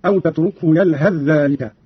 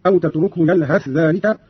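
First: يلهث ذلك merged as yalhadh-dhālik; merged consonants. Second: يلهث ذلك with th kept separate; clear unmerged th. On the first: Teacher demonstrating idgham, يلهث ذلك run together as yalhadh-dhālik. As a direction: melt th of يلهث into doubled dh of ذلك. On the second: Teacher demonstrating izhar, clear th in يلهث ذلك. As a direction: sound the th of يلهث before ذلك. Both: Shown as a demonstration. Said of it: "قرأ قالون بالإظهار والإدغام هكذا".

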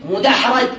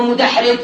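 First: مدحرج said mudahraj, a in the last syllable; fatha before last. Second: مدحرج said mudahrij, i in the last syllable; kasra before last. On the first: Teacher conjugating for students, مدحرج with final-syllable a. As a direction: say مدحرج with a short a after the R. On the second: Teacher conjugating for students, مدحرج with final-syllable i. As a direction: say مدحرج with a short i after the R. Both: Shown as a demonstration. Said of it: "الآن صرف دحرج".

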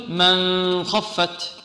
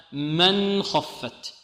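First: Slow "من خفت" said as a questioned example; wrong reading. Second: Very slow "من خفت" with a clear nun; correct clear nun. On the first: Teacher tests students with a wrong form. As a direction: drawl "من خفت" as the error. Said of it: "هل نقول". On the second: Teacher models the correct reading. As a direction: pronounce "من خفت" with the nun plainly shown. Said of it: "لا نقول". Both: Shown as a demonstration.

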